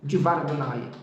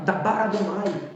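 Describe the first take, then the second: First: The first word begins with the sound 'di'. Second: The first word begins with the sound 'da'. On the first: The speaker calls it right. "Então é Divar Adonai" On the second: The speaker calls it wrong. "Tá errado"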